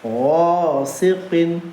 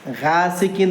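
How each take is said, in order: First: The word is said with a rounded, fuller sound. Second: The word is said with a plain, unrounded sound. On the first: The speaker calls it right. "आवाज़ को थोड़ा गोल करेंगे" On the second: The speaker calls it wrong. "ये गासिक़िन नहीं पढ़ेंगे"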